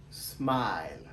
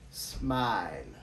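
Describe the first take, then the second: First: "Smile" low, smai-l; English smile. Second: "Smile" repeated low, smai-l; English smile. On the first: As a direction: model "Smile" low and falling. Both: Shown as a demonstration. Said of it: "Comment nous prononcer".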